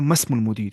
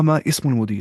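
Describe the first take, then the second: First: The vowel starting the second word is dropped, linking. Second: The vowel starting the second word is pronounced separately. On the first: The speaker calls it right. "we should not pronounce हमजतुल वसल if it's preceding with any other word" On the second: The speaker calls it wrong. "हमने कहा मा इस्मुल मुदीर"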